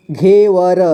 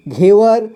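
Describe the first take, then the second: First: घेवर split as घे, व, र; syllable by syllable. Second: Said in the usual way. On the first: Shown as a demonstration. Teacher showing learners घेवर, sounded out in parts. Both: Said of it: "इसे पढ़ेंगे".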